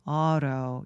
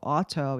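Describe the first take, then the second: First: The t is a soft flap, American style. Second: The t is a crisp t, British style. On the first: "요 flap T 소리가 나오는데요" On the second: "약간 이건 영국식 발음이고"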